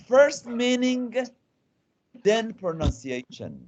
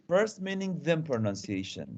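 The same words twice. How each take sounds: First: FIRST pitched high and drawn out, pause before THEN; emphatic key rule. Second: Said in the usual way. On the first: Real, not acted. Teacher giving the class the rule, slow stress on "First meaning". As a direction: state it slowly, high on "First meaning", dropping for "then pronunciation".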